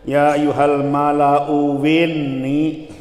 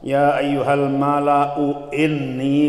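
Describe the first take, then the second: First: Inni begins with a w sound instead. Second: Inni begins with a clear glottal stop. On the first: "jadi wawu" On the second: "bitahqiqil hamzataini"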